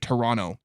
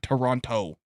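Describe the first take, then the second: First: The second T is dropped. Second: The second T is clearly pronounced. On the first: The speaker is Canadian. The speaker calls it right. "If they're Canadian, they'll say Toronto. ... You don't pronounce the T" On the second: The speaker is not Canadian. The speaker calls it wrong. "not Toronto"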